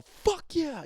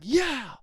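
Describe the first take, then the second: First: Much higher, punchy cheer; excited cheer. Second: Much higher, louder yeah; a bright cheer; excited yeah. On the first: Demo for listeners, high hyped cheer. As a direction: cheer with full hype. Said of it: "Oh, wow, he's really excited". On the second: Demo for listeners, high excited yeah. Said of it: "yeah, he's excited". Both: Shown as a demonstration.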